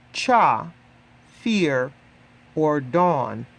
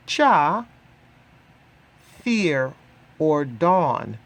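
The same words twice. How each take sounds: The two takes are said the same way.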